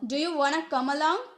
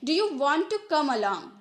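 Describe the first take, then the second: First: It is said quickly, with reduced wanna. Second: It is said at normal pace, want to.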